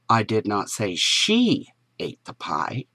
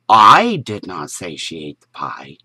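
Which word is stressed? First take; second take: she; I. First: The stress is on the word she. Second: The stress is on the word I.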